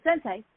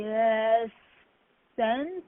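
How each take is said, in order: First: Sensei, said in full with both syllables sen-sei; firmly saying sensei in full as the correction. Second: Sense, said like the English word sense, last syllable dropped, rising; nervously calling him sense instead of sensei; mispronounced sensei. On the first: Instructor corrects the student by saying sensei in full. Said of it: "not sensei". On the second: New student wrongly calls the instructor sense, rising. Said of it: "No, no, no, not sensei". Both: Retold or imitated.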